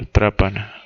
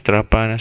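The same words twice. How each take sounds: First: Trápana said TRÁ-pa-na, weight on the first syllable; correct stress. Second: Trapana said tra-PA-na, weight on the middle syllable; wrong stress. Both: Shown as a demonstration. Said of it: "va con tilde en la A".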